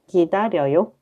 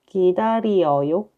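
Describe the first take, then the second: First: The word is said at a faster pace. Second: The word is said at a slower pace.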